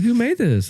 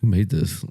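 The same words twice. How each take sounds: First: It sounds impressed, as if the dish is great. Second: It sounds disgusted, as if the dish is bad.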